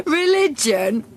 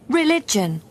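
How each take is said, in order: First: Religion? rising high in disbelief; incredulous rise. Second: Religion. with a flat falling end; firm repeat. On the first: Tucker echoes the nurse, Religion? rising in disbelief. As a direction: echo Religion? as if it's absurd. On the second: Nurse calmly repeats Religion. with a falling tune. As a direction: state Religion. plainly and firmly, falling. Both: Acted.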